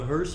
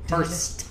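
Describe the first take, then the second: First: The word ends without a T sound. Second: The word ends with a clear T sound. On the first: The speaker calls it wrong. "It's not a hearse. I hate it when people say that" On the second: The speaker calls it right. "There's a T there"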